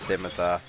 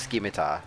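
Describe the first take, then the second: First: The C is silent, starting with an S sound. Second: The C is pronounced as a K sound. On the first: The speaker calls it right. "It's a silent, I guess C" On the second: The speaker calls it wrong. "I used to call it scimitar"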